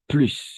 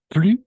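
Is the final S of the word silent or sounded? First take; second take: sounded; silent. First: The final S is clearly sounded. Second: The final S is silent. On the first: "con la S" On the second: "sin la S"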